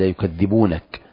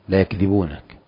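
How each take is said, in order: First: The middle consonant is long and doubled. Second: The middle consonant is short and single. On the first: They do not call him a liar. "والقراءة الثانية هي التجديد" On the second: They do not find him to be a liar. "وهي قراءة التخفيف"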